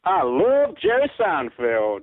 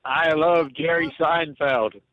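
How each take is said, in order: First: Slow attempt at an American accent. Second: Put-on very slow old-man American accent. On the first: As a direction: try on a Yankee twang, slowly. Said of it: "Say, "I love Jerry Seinfeld". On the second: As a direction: drawl it out like a ninety-year-old American. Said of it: "let's hear [name]". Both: Shown as a demonstration.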